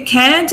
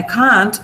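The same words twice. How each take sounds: First: Can't with American front vowel, as in "cat". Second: Can't with British long open AH. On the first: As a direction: say "can't" the American way, "kant" with a short A. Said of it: "can't is American". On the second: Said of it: "can't is British". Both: Shown as a demonstration.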